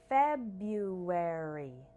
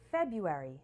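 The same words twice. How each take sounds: First: The word is said slowly. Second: The word is said quickly. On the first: "once slow" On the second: "once faster"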